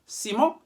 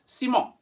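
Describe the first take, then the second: First: The second vowel is a nasal 'on' sound. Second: The second vowel is a nasal 'on' sound.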